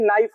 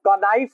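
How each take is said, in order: First: The word begins with an n sound, k silent. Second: The word begins with an audible k sound. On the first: The speaker calls it right. "के silent होता है" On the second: The speaker calls it wrong. "न कि कनाइफ होता है"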